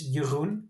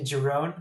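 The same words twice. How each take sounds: First: The name is pronounced the native Dutch way. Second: The name is pronounced the American way. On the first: "It's Jeroen" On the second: "most of the Americans say Jeroen"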